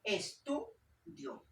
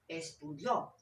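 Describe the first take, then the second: First: Estudio very slowly, es-TU-dio, middle syllable lifted; stress on TU. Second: Estudió with the final syllable punched, es-tu-DIÓ; teacher's wrong version, estu-DIÓ; wrong stress on DIÓ. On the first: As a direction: stretch Estudio out, weight on tu. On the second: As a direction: land on the last syllable of estudió. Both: Shown as a demonstration. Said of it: "Yo no digo estudió".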